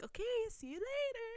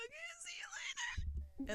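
First: High, soft farewell; retold sweet goodbye. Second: Tiny high whispered squeak; starstruck whisper. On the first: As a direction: imitate a gentle sing-out goodbye. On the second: Retold or imitated. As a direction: reenact losing your voice in front of an idol. Retold starstruck breathless reply.

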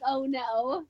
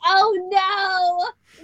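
First: Karkat voice. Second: Lightly voiced copied Karkat; hint of an impression. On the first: Retold or imitated. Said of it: "Karkat was like". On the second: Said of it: "in her Karkat voice".

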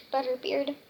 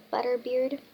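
No difference in how they are said.

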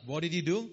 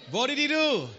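First: Said in the usual way. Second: Excited call. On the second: Real, not acted. Asks again, much higher.

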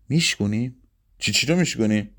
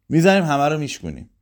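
First: Questioning rise on میشکونیم, disbelieving; incredulous echo. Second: Quick, eager, a bit higher; eager plan. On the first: Mansour doubting Pepsi's plan to break bottles, incredulous. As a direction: throw her word back at her, disbelieving. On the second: Pepsi urging Mansour to smash every bottle, fast and eager. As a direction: rush it out, all fired up. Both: A narrator's reading.

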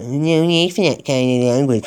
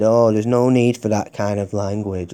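First: Mocking sing-song repeat of the call-centre line, a bit higher; sarcastic mimicry. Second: Said in the usual way. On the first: Caller mocking the call-centre's scripted reply, sneering. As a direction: parrot their stock phrase back with scorn. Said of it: "We always say that". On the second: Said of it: "they said".

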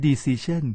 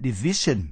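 First: "decision" in even syllables with a raised ending; wrong Thai-style stress. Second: "decision" with stressed "ci", falling after it; correct English stress. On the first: Teacher showing what it is not, Thai-style decision. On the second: Teacher modelling for learners, English stress. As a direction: lean hard on "ci" in "decision". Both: Shown as a demonstration. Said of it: "ไม่ใช่ decision".

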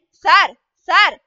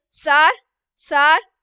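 First: Desperate crying out. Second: A louder, half-sobbing plea of sir sir. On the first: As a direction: beg through the locked door, loud and drawn out. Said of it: "கதறிக்கொண்டே". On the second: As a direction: call the guard with a catch of tears, rising. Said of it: "தேம்பும் குரலில்". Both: A narrator's reading.

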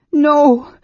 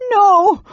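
First: High, loud moaned refusal; helpless moan. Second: Very high, loud shriek.

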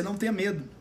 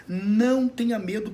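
First: Said in the usual way. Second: Slower and louder, leaning on não; emphatic repeat. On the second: Shown as a demonstration. Pastor urging the viewer not to fear, slow emphatic. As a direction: press "não tenha medo" home, stretching "não" with a rise.

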